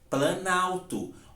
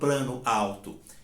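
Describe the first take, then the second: First: The two words merge, losing one vowel sound. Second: The two words are said separately, both vowels kept. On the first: The speaker calls it right. "Eu menciono justamente planalto" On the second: The speaker calls it wrong. "Mas eu não falo plano alto"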